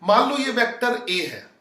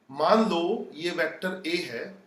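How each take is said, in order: First: Said in the usual way. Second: Slow and soft, मान drawn out with a rise at the end; slower, softer repeat. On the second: Shown as a demonstration. Teacher repeating it for the class, slow and soft. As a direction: say it again gently so students catch it. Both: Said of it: "अपनी style से बताता हूं".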